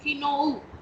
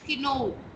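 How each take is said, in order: No difference in how they are said.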